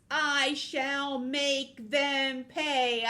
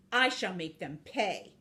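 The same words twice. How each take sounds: First: Loud, high, very drawn-out threat; villainous climax. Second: Restrained menacing vow; villainous vow. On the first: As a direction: stretch every word into a villain's proclamation. Villain vows revenge, climactic take. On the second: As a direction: state the threat with measured resolve. Villain vows revenge, first take. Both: Acted.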